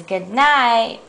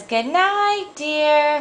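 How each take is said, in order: First: Lightly voiced husband's goodnight; zookeeper husband. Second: High, sweetly acted wifely goodnight; zookeeper's wife. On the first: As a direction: answer plainly in a middle pitch. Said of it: "Mister Zookeeper says". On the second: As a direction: say it high, to a husband. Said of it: "Missus Zookeeper says".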